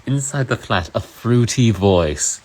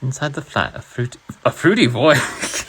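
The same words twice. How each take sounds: First: Emphatic British read. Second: High British read collapsing into laughs; breaking into laughter. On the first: Pretend. Streamer retaking the line for viewers, theatrical British. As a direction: start high, then loud and drawn out. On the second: Real, not acted. Streamer reading Orwell to viewers, cracking up. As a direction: lose it laughing on the last words.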